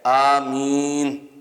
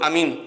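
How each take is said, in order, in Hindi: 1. यह शब्द ऊंची आवाज़ में और खींचकर कहा गया है। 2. यह शब्द छोटा और झटके से कहा गया है। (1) "आमीन ऊंची कहनी चाहिए और खींच के कहनी चाहिए" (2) "ऐसे नहीं"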